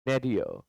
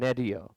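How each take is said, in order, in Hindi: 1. पहला स्वर 'ay' जैसा सुनाई देता है। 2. पहला स्वर 'ay' जैसा सुनाई देता है।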